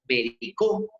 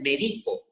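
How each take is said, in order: First: The stress is on the last syllable. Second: The stress is on the middle syllable. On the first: "cuando la sílaba saltó a la última" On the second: "la volvió grave"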